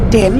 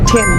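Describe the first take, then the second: First: The t sound has no puff of air. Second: The t sound has a strong puff of air. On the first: The speaker calls it wrong. "No" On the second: The speaker calls it right. "টি এর সঠিক উচ্চারণ হচ্ছে ঠি"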